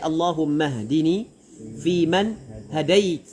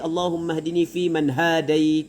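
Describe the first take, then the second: First: The vowel after h in hadait is short. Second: The vowel after h in hadait is long. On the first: The speaker calls it right. "Kena ha ha tu pada hadait kena pendek" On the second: The speaker calls it wrong. "Apa ni panjang?"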